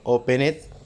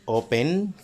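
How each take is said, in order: First: The ending is said as an extra syllable. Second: The ending is just a D sound. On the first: The speaker calls it wrong. "Open it, tampoco" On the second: The speaker calls it right. "al sonido normal le vamos a agregar la D"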